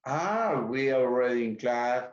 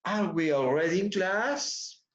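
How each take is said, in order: First: Are we already in class? falling like an affirmation; flat statement tune. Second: Are we already in class? rising at the end on class; rising question. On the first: Teacher repeating the flat version students say. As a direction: end Are we already in class? downward, not as a question. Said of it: "esa suena como afirmación". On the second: Teacher giving the corrected rising question. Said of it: "Tiene que subir un poco la entonación". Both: Shown as a demonstration.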